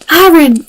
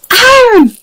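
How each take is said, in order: First: Iron said in a light mock Canadian accent, loud; a playful hint of Canadian on Iron. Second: Gasps then cries it out high and loud; thrilled at spotting the ore; excited gasp. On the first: Streamer joking to viewers, light mock Canadian accent. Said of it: "as the Canadians say". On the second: Real, not acted. Gamer spotting iron ore, a gasping excited cry.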